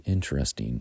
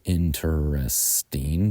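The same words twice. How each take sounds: First: Interesting squeezed to three syllables, intr-esting. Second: Interesting said slowly with all four syllables, in-ter-est-ing. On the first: Teacher models the common three-syllable interesting. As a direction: drop the middle vowel of interesting, intresting. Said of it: "but most people say interesting". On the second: Teacher shows the rarer four-syllable interesting. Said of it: "some might say interesting". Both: Shown as a demonstration.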